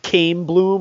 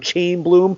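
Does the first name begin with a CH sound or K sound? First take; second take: K sound; CH sound. First: The first name begins with a K sound. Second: The first name begins with a CH sound.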